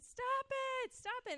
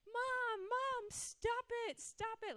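First: Imitating a girl's delighted high squeal; very high, playful mock complaint; giggly protest. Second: Imitating a girl's high, drawn-out whine; much higher, protesting like a cross child; angry whining protest. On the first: Girl smothered with kisses, giggly protest. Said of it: "she started laughing and then said". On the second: Girl protesting mother's kisses, angry at first. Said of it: "she was angry at first".

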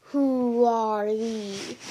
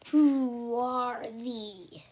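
First: Slow, drawn-out mock deep voice of a stranger; a lightly voiced looming stranger. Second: Very slow, whispered stranger's question; deep voice whisper. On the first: Unseen guard on the castle wall calls down in a slow mock deep voice. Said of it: "And then a deep voice said". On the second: Guard questions the captives in the dungeon with a slow whisper. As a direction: breathe it out like a hidden guard. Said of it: "a deep voice asked again". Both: A narrator's reading.

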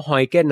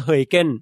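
First: ฮอยเก้น with a plain "oy" first vowel; ฮอยเก้น, first syllable "hoy" rather than "hoey"; Thai-style pronunciation. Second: เฮยเก้น with an "oey" first vowel; เฮยเก้น, first syllable "hoey" rather than "hoy"; Dutch-style pronunciation. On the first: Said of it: "ผมก็คนไทยอะนะ". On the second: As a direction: say เฮยเก้น the supposedly correct Dutch way. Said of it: "ถ้าออกเสียงถูกต้องจริงๆ ตามหลักชาวดัชก็ต้อง". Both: Shown as a demonstration.

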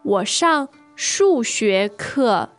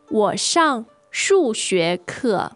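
Both takes have the same delivery.

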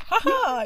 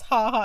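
First: "Ha ha" much higher, punched out; mock-triumphant "Ha ha"; emphasized ha ha. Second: Said in the usual way. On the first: Shown as a demonstration. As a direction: give "Ha ha" a big high bounce. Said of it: "put some emphasis on the". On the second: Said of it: "You can't just".

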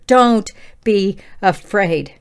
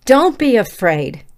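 First: Don't be afraid drawn out slowly, each word weighed; slow scripture quote. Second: Said in the usual way. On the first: Shown as a demonstration. Quoting Scripture to the listeners, slow and deliberate. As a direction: read it slowly as a verse from Scripture. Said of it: "How many times did he say that in Scripture?". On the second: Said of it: "How many times did he say that".

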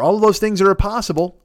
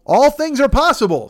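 First: Said in the usual way. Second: Kevin Garnett yell. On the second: Retold or imitated. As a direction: belt it like a hyped athlete. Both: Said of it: "says Kevin Garnett".

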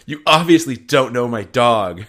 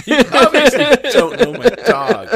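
First: Louder, slowed, laughing; mock yell. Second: Much higher and louder, slowed, laughing; shrill mock yell. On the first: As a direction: huff it indignantly. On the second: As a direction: scream it hysterically. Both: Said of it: "she probably just yells".

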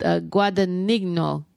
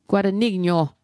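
First: Said in the usual way. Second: Guadagnino said the Italian way, gwah-dah-NEEN-yo; Italian accent. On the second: Shown as a demonstration. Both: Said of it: "I have to say with an Italian accent".

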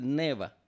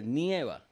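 First: "neva" with a plain stressed e; neva, no diphthong. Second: "nieva" slowed, stress on the "ie" glide; nieva, with diphthong. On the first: Teacher shows the faulty form, plain-e "neva". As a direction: say "neva" with no i glide. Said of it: "Porque si dices neva". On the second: Teacher gives co-host the right form, diphthong "nieva". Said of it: "creó un ñe". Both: Shown as a demonstration.

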